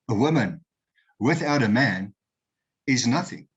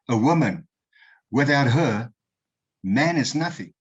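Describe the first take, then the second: First: The pause comes after woman, grouping 'her man'. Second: The pause comes after her, before 'man'.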